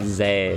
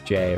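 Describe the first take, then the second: First: The name begins with a 'z' sound. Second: The name begins with a 'j' sound. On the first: The speaker calls it wrong. "It's not Zay" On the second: The speaker calls it right. "it's J, right?"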